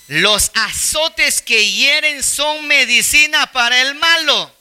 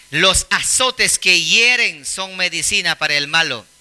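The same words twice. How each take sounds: First: Slow, higher scripture reading; slow reading aloud. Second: Said in the usual way. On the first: Shown as a demonstration. Preacher reads the verse slowly to the congregation. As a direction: read the verse slowly and solemnly. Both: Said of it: "Lean conmigo ese veinte treinta".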